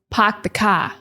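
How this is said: The R sounds after the vowels are dropped. "That is like a Boston accent"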